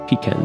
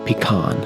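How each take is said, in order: First: It is said in a non-American way. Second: It is said in an American way.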